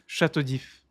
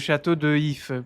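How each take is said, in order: First: The vowel of 'de' is dropped and joined to 'If'. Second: The vowel of 'de' is fully pronounced before 'If'. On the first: The speaker calls it right. "simplesmente d'If" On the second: The speaker calls it wrong. "para que não se dissesse assim"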